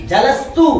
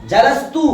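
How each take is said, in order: Both takes have the same delivery.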